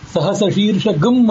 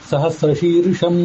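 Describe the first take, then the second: First: The word ends in an added 'gam' sound. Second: The word ends in a plain nasal sound. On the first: "ಗಮ್ ಅಂತ ಇತ್ತೀಚೆಗೆ ಕೆಲವರು ಹೇಳ್ತಾರೆ" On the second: "ಅಂತ ಹೀಗೆಲ್ಲ ಹೇಳ್ತೇವೆ"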